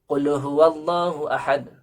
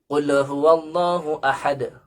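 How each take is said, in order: Both takes have the same delivery.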